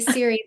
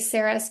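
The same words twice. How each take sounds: First: It is said the way Americans say it. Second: It is said the way some Europeans say it. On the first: "Americans say Ceres" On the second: "some folks in in Europe say Ceres"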